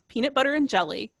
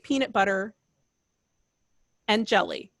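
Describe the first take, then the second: First: The phrase is said as one unbroken group. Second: The phrase is broken by a pause inside. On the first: The speaker calls it right. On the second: The speaker calls it wrong. "You would never say"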